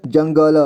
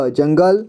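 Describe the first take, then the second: First: जंगल split as "jan-ga-la"; जंगल with final ल voiced as "la"; sounded out. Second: Said in the usual way. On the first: Shown as a demonstration. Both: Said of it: "इसे [name] पढ़ेंगे".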